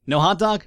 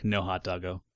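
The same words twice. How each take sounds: First: High, louder disbelieving question; mock dismay. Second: Low, soft, let-down echo; mock heartbroken. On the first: Player finding the hot dog option gone, mock dismay. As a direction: ask it as if let down. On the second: Player lamenting the missing hot dog, mock heartbroken. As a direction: sink down softly in playful disappointment. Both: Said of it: "heartbroken about no hot dog".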